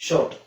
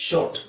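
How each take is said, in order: The two takes are said the same way.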